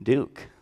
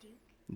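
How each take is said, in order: First: Said in the usual way. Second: Barely breathed, no voice at all; soft whispered answer; whispered name. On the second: Real, not acted. Child answers, teacher repeats name.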